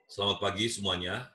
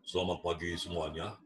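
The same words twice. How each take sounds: First: The voice is pitched at a middle level. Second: The voice is pitched low and deep.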